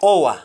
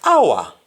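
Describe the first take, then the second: First: "hour" said OH-wa, with O; Jamaican pronunciation. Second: "Hour" said AH-wa, with open "ow"; English-style "Hour", starting on "ah"; English pronunciation. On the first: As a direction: say "hour" the Patois way, as oa. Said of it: "in Jamaican". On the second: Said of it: "in English". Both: Shown as a demonstration.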